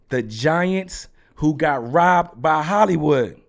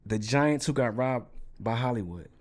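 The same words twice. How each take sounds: First: It is said in an angry tone. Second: It is said in a calm, neutral tone.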